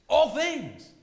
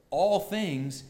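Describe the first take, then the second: First: ALL THINGS punched high and loud; emphatic ALL THINGS. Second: ALL THINGS said slowly, set apart; measured stress on ALL. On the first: Preacher insisting on what Paul means, emphatic loud ALL THINGS. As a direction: hit "all" hard and high, then fall. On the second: Preacher quoting Paul's words to the congregation, measured stress on ALL. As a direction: draw out "all things" at moderate force. First take of quoted phrase. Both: Shown as a demonstration.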